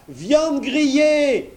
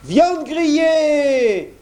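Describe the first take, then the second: First: Very high, slow mocking cry; blacksmith crying out. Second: Very high, slow mock blacksmith cry; imitating the blacksmith. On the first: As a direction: jeer it out, stretched. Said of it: "cria le forgeron". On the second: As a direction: fake the blacksmith to scare the wolf. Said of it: "en imitant la voix du forgeron". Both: A narrator's reading.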